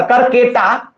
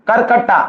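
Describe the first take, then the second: First: करकेटा said kar-ke-ta, with a plain e in the middle, not करकट्टा; corrected name. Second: Said in the usual way. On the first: Shown as a demonstration. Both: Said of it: "करकेटा, करकट्टा नहीं".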